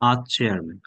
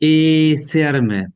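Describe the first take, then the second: First: The article is a short open 'uh' sound. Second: The article is a full 'ay' sound. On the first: The speaker calls it right. "কষ্ট করে বলবেন আ" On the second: The speaker calls it wrong. "হম হবে না"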